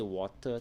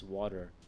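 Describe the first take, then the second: First: The middle t is a full, crisp t. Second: The middle t is a quick alveolar tap. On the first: The speaker calls it wrong. "You don't say water" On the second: The speaker calls it right. "though it's water"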